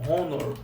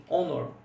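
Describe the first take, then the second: First: Honor said with a Brazilian R in front; honor without the R sound. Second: Honor said with no sound at the start, "ónor"; silent h honor. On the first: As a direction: honor said the wrong way, "rônor". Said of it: "não é pronunciado com R, tipo". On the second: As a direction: honor starting straight on the vowel. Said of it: "O honor seria assim". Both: Shown as a demonstration.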